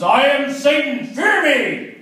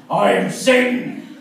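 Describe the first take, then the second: First: Higher, louder, slow devil roar; mock demon roar, louder the second time; Satan voice. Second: Slow, booming devil voice; hammed-up Satan announcing himself. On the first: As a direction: bellow it like a hammy devil. Satan repeats his demand. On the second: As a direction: drag it out like the devil rising. Satan voice from the floor.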